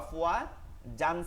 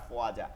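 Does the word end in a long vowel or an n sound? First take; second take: n sound; long vowel. First: The word ends with an n sound. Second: The word ends with a lengthened vowel. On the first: This is the form when reading on without stopping. "উচ্চারণটা কি ছিল? আফওয়া জান ছিল" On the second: This is the form when stopping at the end of the verse. "একটা জবরকে আমরা উঠাই দিব... এক আলিফ টেনে পড়তে হবে"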